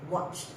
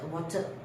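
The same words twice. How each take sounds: First: The ending is said as one single sound. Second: The ending is said as an extra syllable. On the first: The speaker calls it right. "No, it's just watched" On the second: The speaker calls it wrong. "I have heard before"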